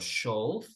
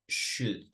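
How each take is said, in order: First: The word is said with an L sound. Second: The word is said without an L sound. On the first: The speaker calls it wrong. "no digo should" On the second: The speaker calls it right. "digo should"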